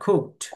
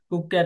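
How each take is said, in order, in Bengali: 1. শেষ অংশটি একটি একক শেষ ব্যঞ্জন। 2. শেষ অংশটি একটি অতিরিক্ত দল হিসেবে উচ্চারিত হয়। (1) "শব্দটা হবে কুকড" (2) "কুকক্যাট না"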